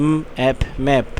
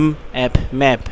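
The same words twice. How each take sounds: Both takes have the same delivery.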